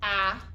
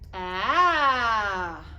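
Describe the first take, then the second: First: The pitch stays level throughout. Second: The pitch goes up and then down. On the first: The speaker calls it wrong. "instead of saying ah" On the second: The speaker calls it right. "pretend your voice is like a roller coaster"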